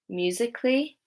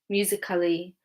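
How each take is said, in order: First: The 'a' before 'ly' is silent. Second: The 'a' before 'ly' is pronounced as a syllable. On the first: The speaker calls it right. "So the A is silent in these words" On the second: The speaker calls it wrong. "If I were to pronounce the A, it would be"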